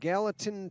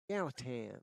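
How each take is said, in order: First: It is said in a plain, neutral accent. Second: It is said with a Southern twang.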